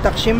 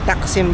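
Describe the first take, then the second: First: The consonant before 'im' is not a plain s. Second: The consonant before 'im' is a plain s. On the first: The speaker calls it wrong. "hindi Takshim?" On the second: The speaker calls it right. "Normal S eh"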